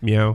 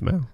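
First: It is said as the usual English cat sound. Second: It is said as the Japanese cat sound. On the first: "instead of meow" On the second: "cat goes meow in Japan"

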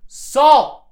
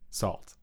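First: It is yelled loudly. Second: It is said at normal volume.

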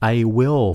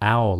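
First: Both words are said fully and separately. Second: The words are contracted into one syllable.

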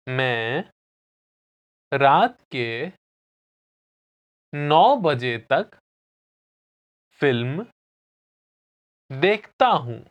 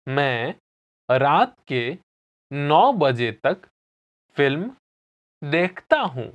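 First: It is said slowly. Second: It is said at normal speed.

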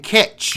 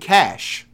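First: The word ends with a sharp 'tch' sound. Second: The word ends with a soft 'sh' sound. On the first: The speaker calls it wrong. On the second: The speaker calls it right.

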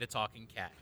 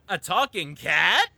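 First: The title is said flatly with no excitement. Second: The title ends with an excited, rising questioning tune. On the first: The speaker calls it wrong. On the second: The speaker calls it right.

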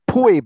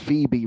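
First: The name begins with a p sound. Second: The name begins with an f sound.

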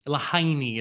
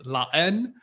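First: The title is read as English spelling suggests. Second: The title is pronounced the French way. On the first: The speaker calls it wrong. "Lahaini is kind of what it looks like" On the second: The speaker calls it right. "but it's La Haine in French"

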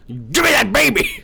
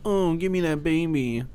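First: It is said as a forceful demand. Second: It is said weakly, without conviction.

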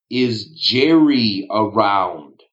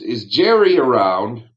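First: It is said slowly. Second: It is said at normal speed.

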